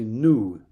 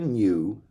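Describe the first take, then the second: First: The vowel sounds like 'ooh', without a y-glide. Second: The vowel sounds like 'you', with a y-glide. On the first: This is how people in New York say it. "they say new" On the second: This is how people in Ireland say it. "We say new"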